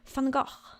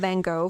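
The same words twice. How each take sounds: First: The name is said with a Dutch-style pronunciation. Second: The name is said with English pronunciation. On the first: This is how the name is actually pronounced. The speaker calls it right. "it's actually not Van Gogh, it's Van Gogh" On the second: The speaker is addressing English speakers. The speaker calls it wrong. "I'm saying Van Gogh for everyone here because I speak English here"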